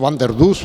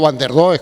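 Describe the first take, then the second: First: The name is said with a Dutch-like vowel. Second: The name is read with Spanish-style vowels. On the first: This is closer to the original pronunciation. The speaker calls it right. "era Van der Dus o algo similar" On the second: This is the usual local way of saying it. The speaker calls it wrong. "yo digo Van der Does, como ustedes"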